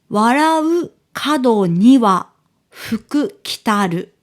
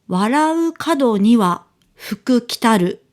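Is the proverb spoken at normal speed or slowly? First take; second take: slow; normal. First: The proverb is spoken slowly and deliberately. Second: The proverb is spoken at a normal pace.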